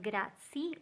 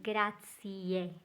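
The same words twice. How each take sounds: First: The word ends without a final vowel. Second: The word ends with a clear e vowel. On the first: The speaker calls it wrong. "Not grazie" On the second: The speaker calls it right. "Make sure you pronounce that final E"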